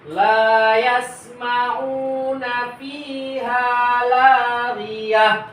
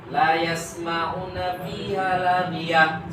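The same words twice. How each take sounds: First: The long vowels are held long. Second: All the vowels are cut short. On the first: The speaker calls it right. "cara membaca yang benar adalah" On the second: The speaker calls it wrong. "contoh bacaan yang salah, dipendekkan lamnya"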